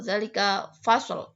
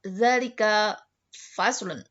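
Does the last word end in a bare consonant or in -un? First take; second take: bare consonant; -un. First: The last word ends on a bare consonant. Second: The last word ends with an added -un syllable. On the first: The word is read in its shortened form. "dibaca fasl kalau disukunkan" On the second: The word is read with its full vowel ending. "kalau diharokatkan atau ada tanda bacanya jadi faslun"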